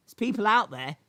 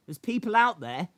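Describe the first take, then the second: No difference in how they are said.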